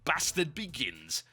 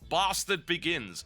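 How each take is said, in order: First: It is said in a northern regional accent. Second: It is said in a standard, non-northern accent.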